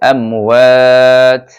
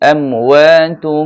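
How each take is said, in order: First: The word ends in a bare 'at' sound. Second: The word ends with an added 'um' sound. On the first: The reading stops at this word. "থামলে হবে আমওয়াত" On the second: The reading continues into the next words. "আর যদি মিলিয়ে পড়তে চান তাহলে পড়বেন আমওয়াতুম"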